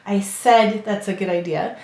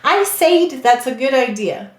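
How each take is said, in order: First: The vowel in said is a short eh. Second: The vowel in said is a long ay. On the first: The speaker calls it right. "We say said" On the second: The speaker calls it wrong. "That's not what we say"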